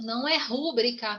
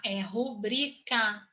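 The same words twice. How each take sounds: First: Mock wrong stress on rú: rúbrica. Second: Rubrica with the stress on bri; correct stress. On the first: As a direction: say rúbrica stressed on the first syllable, as a mistake. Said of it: "Gente, por favor". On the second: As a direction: say rubrica stressed on the middle syllable, slowly. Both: Shown as a demonstration.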